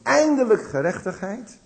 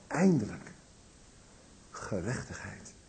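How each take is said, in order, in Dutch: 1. Het wordt gezegd op een zelfvoldane, triomfantelijke toon. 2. Het wordt gezegd op een opgeluchte, verlangende toon. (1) "zo van wat zijn wij goed en zij krijgen de schuld" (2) "Eindelijk dat waar ik mijn hele leven misschien wel zelf naar heb gezocht"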